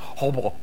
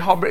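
First: The name is said in a muffled, throaty way. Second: The name is said plainly and clearly. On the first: The speaker calls it right. "it's actually pronounced Hobro. And you have to take something like a potato, put it in your mouth" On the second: The speaker calls it wrong. "you don't say Hobro"

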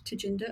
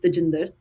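First: The name is said with an English accent. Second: The name is said with an Indian accent. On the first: "I say the English way and not the Indian" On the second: "I've never said Tajinder"

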